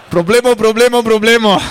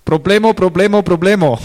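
First: Higher, louder mock alarm breaking into a laugh; laughing captain imitation. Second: Imitating a worried captain, higher and louder; mock the captain on the radio; boat captain's radio call. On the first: Preacher repeating the captain's radio call to the congregation, laughing. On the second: Preacher imitating the boat captain on the radio, mock alarm. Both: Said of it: "he started all his conversations like this".

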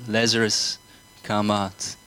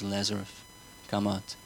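First: Leading the congregation, a firm call "Lazarus, come out"; called command. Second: Much softer "Lazarus, come out", almost spoken to himself; soft, calm "Lazarus, come out" before the crowd repeats it; quiet command. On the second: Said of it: "Repeat with me". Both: Shown as a demonstration.

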